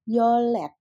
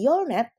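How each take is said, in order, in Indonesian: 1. Suku kata kedua diawali dengan bunyi l. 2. Suku kata kedua diawali dengan bunyi n. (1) "tetapi menjadi yolet" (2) "dibacanya bukan lagi yolnet"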